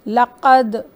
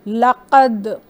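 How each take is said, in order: The two takes are said the same way.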